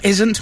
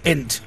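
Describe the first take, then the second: First: The s sound is kept in the word. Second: The s sound is dropped from the word. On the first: "For isn't" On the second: "We just drop the S"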